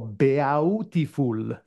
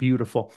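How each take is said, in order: First: It is said with an Italian-style pronunciation. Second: It is said with an ordinary English pronunciation.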